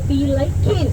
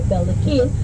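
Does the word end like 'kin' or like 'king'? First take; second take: king; kin. First: The word ends with a 'king' sound, like 'liking'. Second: The word ends with a plain 'kin' sound. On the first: "I say be liking" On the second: "I don't say Belikin"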